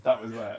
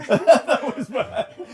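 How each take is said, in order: First: Said in the usual way. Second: Laughing through the words, higher and louder; giggling echo of the quote; laughing repeat. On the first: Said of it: "Did you say to him". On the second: Real, not acted. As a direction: crack up while echoing it.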